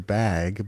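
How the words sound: It is said in the Arizona accent. "a bag to us is a bag"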